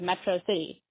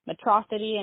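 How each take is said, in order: First: It is said as two separate words. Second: It is run together as one word. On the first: The speaker calls it right. "instead of" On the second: The speaker calls it wrong. "Mispronunciations of common words"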